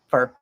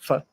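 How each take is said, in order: First: The vowel is reduced to a schwa. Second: The vowel is almost completely dropped. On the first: "we say fur" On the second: "for some people, it's just f"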